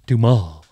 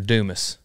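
First: The word ends in an ah sound, s silent. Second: The final s sound is pronounced. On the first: "Then just put A-H at the end" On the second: "It's Alexander Dumas"

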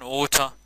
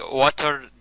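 First: It is said in a British accent. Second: It is said in an American accent.

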